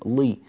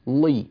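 First: The L is pronounced thick and heavy. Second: The same.

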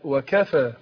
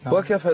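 First: The word is said fully and unhurried. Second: The word is rushed and clipped. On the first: The intended meaning is kept. The speaker calls it right. "لا وكفى" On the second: The meaning of the word changes. The speaker calls it wrong. "تخطفت قلت وكفى اتغير المعنى"

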